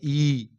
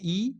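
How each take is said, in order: First: The vowel is said with extra force. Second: The vowel is said lightly and gently. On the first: "एक को थोड़ा जोर देके कहते हैं" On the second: "एक को अस्थिर से कहते हैं"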